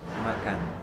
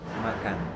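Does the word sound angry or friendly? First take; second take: angry; angry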